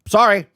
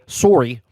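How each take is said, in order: First: It is said in the speaker's plain accent. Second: It is said in a Canadian-style accent.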